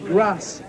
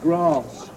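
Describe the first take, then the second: First: The word is said in a Liverpool accent. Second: The word is said in a standard English accent. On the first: "the Liverpool accent, so the way you say some of the words" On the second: "instead of grass"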